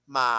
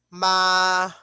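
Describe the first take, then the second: First: The pitch dips down then rises. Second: The pitch stays high and level. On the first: "falling rising" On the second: "flat or high"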